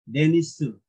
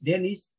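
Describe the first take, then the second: First: It ends with an added u vowel after s. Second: It ends on the s sound, with no vowel.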